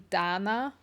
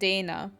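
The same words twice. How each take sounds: First: The name is said with a non-English pronunciation. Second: The name is said with an English pronunciation. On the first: This is how the speaker's family says the name. "the way that my family pronounces it" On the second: This is how English speakers say the name. "so my name in English, you pronounce it Dana"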